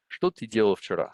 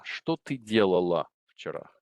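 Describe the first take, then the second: First: "делал" said with a plain hard -л, male form; masculine ending. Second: "делала" with an added -ла, stressed ending for a woman; feminine ending. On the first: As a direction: end "делал" crisply on л. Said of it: "there I'm addressing a male". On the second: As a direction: add the ending "ла" clearly to "делала". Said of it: "There I'm addressing a female". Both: Shown as a demonstration.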